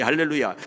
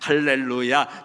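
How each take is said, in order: First: The word is said at a fast pace. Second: The word is said at a slow pace.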